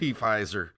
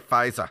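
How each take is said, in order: First: The initial P is pronounced before the F sound. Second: The initial P is silent, starting with F. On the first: The speaker calls it right. "I say P-Pfizer" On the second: The speaker calls it wrong. "I refuse to say Pfizer"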